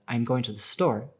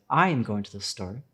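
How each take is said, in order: First: The stress is on the word store. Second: The stress is on the word I.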